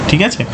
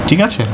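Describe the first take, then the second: Both takes have the same delivery.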